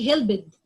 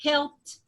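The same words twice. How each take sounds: First: "helped" said as "hel-bid", with a voiced b and an extra syllable; teacher sounds out "helped" the wrong way, "hel-bid"; wrong pronunciation. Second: "helped" ending in a crisp t, "helpt"; teacher says "helped" right, one syllable ending in t; correct pronunciation. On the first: Teacher showing the class the wrong "hel-bid" for "helped". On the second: Teacher modelling the correct "helpt" for the class. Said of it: "I'm going to say it like". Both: Shown as a demonstration.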